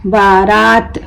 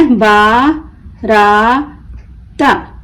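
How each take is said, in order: First: Said in the usual way. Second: बारात very slow in three pieces, बा, रा, त; broken into syllables. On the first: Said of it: "मिलकर क्या बना इसको". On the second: Shown as a demonstration. Teacher breaking the word for learners, बारात as baa... raa... ta. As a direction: stretch and separate each part of बारात. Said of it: "तोड़ तोड़ कर पढ़ना सीखें".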